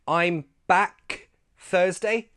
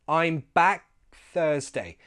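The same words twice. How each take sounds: First: The k in back is fully released. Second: The k in back is cut off unreleased. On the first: The speaker calls it wrong. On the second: The speaker calls it right. "We take the k out of k in back"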